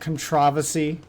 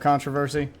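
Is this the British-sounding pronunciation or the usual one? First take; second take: British; usual. First: It is said the British-sounding way. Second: It is said the usual, expected way. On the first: The speaker calls it wrong. "is that the British way to say it?" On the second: The speaker calls it right. "instead of controversy"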